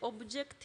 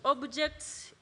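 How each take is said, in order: First: The word ends without the s sound. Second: The word ends with a clear s sound. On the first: There seems to be only one. The speaker calls it wrong. "you're not pronouncing that S" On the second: There is more than one. The speaker calls it right. "yet the S is there"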